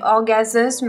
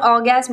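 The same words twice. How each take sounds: First: The word is pronounced with English-style sounds. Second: The word is pronounced with French sounds. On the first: "mais orgasme, un truc dans le genre" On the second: "il faut pas le dire orgasme"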